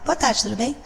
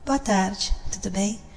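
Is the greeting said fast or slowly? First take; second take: fast; slow. First: It is said quickly and abruptly. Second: It is said slowly and softly. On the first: The speaker calls it wrong. "Você não vai falar" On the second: The speaker calls it right. "Sempre assim"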